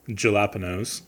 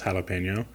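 First: It is said in a Midwestern American way. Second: It is said in the standard Spanish-style way. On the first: "you got to pronounce it like we do in the Midwest" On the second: "enough Midwesterners know it's jalapeno"

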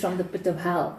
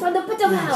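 First: It is said calmly, with little energy. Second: It is said passionately, with strong energy. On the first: The speaker calls it wrong. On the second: The speaker calls it right.

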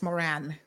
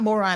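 First: The last syllable sounds like 'ran'. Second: The last syllable sounds like 'ron'. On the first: The speaker calls it right. "it's Moran" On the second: The speaker calls it wrong. "It's not Moron"

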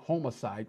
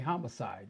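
First: The first part sounds like homo, as in Homo sapiens. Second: The first part sounds like hommy, with a short vowel. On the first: "we don't say homicide" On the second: "we say homicide"

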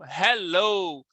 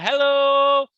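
First: It is said in a plain, neutral way. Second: It is said happily, with lots of energy.

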